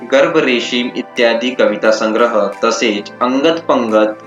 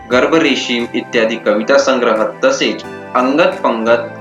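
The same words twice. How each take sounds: No difference in how they are said.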